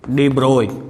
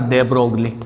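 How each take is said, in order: First: The name is said without g, ending 'broy'. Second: The name is said with a hard g, ending 'glee'. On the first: This is how the name is actually spoken. The speaker calls it right. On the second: This is how the name looks when read from the spelling. The speaker calls it wrong.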